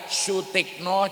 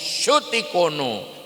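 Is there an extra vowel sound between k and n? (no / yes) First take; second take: no; yes. First: The k and n are said together. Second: An extra o comes between k and n. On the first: This is the name as normally said. "nama baru saya Sutikno" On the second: This is the name as a Japanese speaker says it. "jadi Sutikono"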